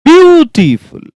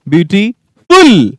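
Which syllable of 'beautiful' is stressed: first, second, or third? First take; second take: first; third. First: The stress is on the first syllable. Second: The stress is on the third syllable. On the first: "कभी कभी first पे" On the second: "कभी third पे"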